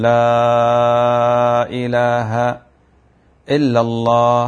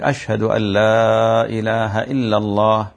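First: Chanted "لا إله" held long, then a pause before "إلا الله"; sung adhan with a break after لا إله; muezzin's error, stopping at لا إله; wrong pause. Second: "أشهد أن لا إله إلا الله" chanted slowly without a break; sung in one slow continuous line; the correct way, chanted without a pause; sung, correct adhan phrasing. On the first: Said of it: "هذا خطأ عظيم". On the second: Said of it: "ذاك". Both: Shown as a demonstration.

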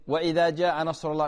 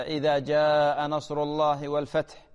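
First: وإذا said with an extra و sound before إذا; imitating the added waw. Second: Slow chanted recitation of إذا with no added و; correct recitation. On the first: Sheikh imitates Um Fawaz's wrong reading with the extra waw. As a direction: copy the caller's mistake by adding و to وإذا. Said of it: "تقولين". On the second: Shown as a demonstration. Sheikh models the right reading for Um Fawaz, slow and chanted. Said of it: "يعني الآن مثلًا".

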